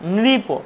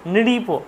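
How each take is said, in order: First: The first syllable is 'nri' with an r sound. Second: The same.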